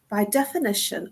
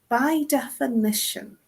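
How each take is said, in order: First: It is said at a normal reading pace. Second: It is said slowly and deliberately.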